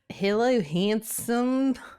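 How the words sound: It is spoken in an Australian accent. The speaker calls it wrong. "my Australian accent"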